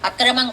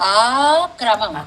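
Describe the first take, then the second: First: The first vowel is short, run into one word. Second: The first vowel is long, set apart from the rest. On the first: It means something improper. The speaker calls it wrong. "జాగ్రత్తగా చదవకపోతే అక్రమం అవుతుంది" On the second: It means that proper order. The speaker calls it right. "అక్రమం కాదు, ఆ క్రమం"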